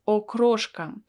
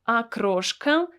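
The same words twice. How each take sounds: First: The first vowel sounds like 'o'. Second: The first vowel sounds like 'a'. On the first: The speaker calls it wrong. "I don't pronounce it as окрошка" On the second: The speaker calls it right. "I pronounce it as A"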